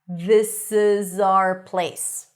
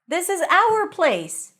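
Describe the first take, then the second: First: The word 'our' is unstressed and reduced. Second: The word 'our' is stressed and fully pronounced. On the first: "When it's reduced, and in this case the place and this are stressed" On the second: "When these words are stressed, full pronunciation"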